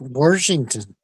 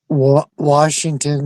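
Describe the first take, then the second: First: It is said with an R sound added. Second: It is said without an R sound.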